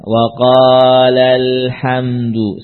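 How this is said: The pitch stays flat throughout the phrase. It may seem that no long vowel exists. The speaker calls it wrong. "Kalau dibaca datar-datar saja"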